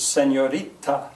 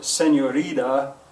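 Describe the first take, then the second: First: The t is a clear, crisp t sound. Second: The t is softened to a d-like sound. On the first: The speaker calls it right. "it's senorita" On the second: The speaker calls it wrong. "So you don't say"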